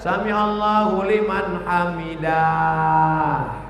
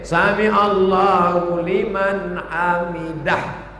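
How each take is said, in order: First: The vowel in hamidah is drawn out long. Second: The vowel in hamidah is kept short. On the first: The speaker calls it wrong. "Bapak kenapa tadi baca panjang hamidah?" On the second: The speaker calls it right.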